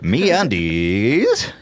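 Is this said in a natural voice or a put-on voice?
put-on. It is said in a put-on character voice.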